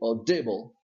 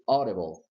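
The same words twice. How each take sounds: First: The stress is not on the first syllable. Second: The stress is on the first syllable. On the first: The speaker calls it wrong. "You don't say audible" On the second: The speaker calls it right. "the stress of the word is here on this syllable, au"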